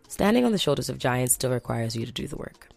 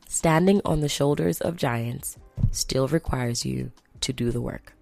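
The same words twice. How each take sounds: First: It is said fast. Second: It is said slowly.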